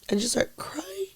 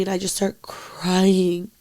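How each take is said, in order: First: Crying as she says it, barely voiced; crying whisper. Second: Said in the usual way. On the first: Real, not acted. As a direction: voice breaking into a high, soft, tearful whisper.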